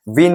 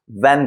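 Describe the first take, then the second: First: Van misread as विन, with an "ee"-like short i; wrong vowel reading. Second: Said in the usual way. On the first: Shown as a demonstration. Teacher shows learners the wrong van, mispronounced विन with an i. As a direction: say विन with the i of "win". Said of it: "विन नहीं बोलते हैं". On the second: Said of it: "वैन बोलते हैं".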